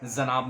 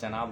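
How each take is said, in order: First: The word begins with a 'z' sound. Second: The word begins with a 'j' sound. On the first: The speaker calls it wrong. "जनाब नहीं होता" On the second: The speaker calls it right. "जाम नुक्ता नहीं है, जनाब होता है"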